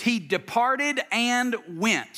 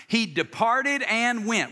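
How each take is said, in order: First: He departed and went, slow and deliberate; slow emphatic phrase. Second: Slow, leading "He departed and went." for the crowd to echo; slow call and response. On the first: Preacher leading the crowd, slow and deliberate. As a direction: lay out "he departed and went" word by word. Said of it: "here's the phrase". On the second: Preacher leads congregation reciting, slow and deliberate. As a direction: say it with them, slowly. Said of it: "Say that out loud with me". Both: Shown as a demonstration.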